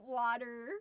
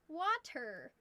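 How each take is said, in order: First: The middle consonant sounds like a soft d. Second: The middle consonant is a clear t. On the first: "We say wa- water. ... it is W O D U R" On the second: "it's like you're trying too hard"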